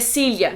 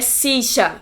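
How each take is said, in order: First: Spain accent, with the double L sound kept. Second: Argentine accent, with the double L as sh. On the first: "na Espanha é silha" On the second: "é sicha pros argentinos"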